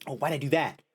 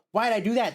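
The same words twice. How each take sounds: First: Said in the usual way. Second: Pitched up in dismay; squeaky higher exclamation; higher, louder repeat. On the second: Real, not acted.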